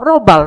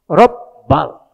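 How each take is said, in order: First: The b sound is short and single. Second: The b sound is held long and doubled. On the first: The speaker calls it wrong. "Robal salah" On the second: The speaker calls it right. "Kalau Robbal bener pula"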